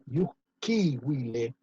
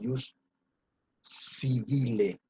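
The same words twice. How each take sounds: First: The consonant in civile sounds like w. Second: The consonant in civile sounds like b. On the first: The speaker calls it right. "la B se pronuncia will" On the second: The speaker calls it wrong. "no voy a decir jus civile con B corta"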